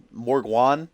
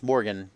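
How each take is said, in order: First: MORGWAN with a W sound, ending in "wan"; altered pronunciation. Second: Said in the usual way. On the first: Shown as a demonstration. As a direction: say "Morgwan" as MORG-WAHN, questioning. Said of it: "put a W in there". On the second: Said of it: "That's not how you pronounce".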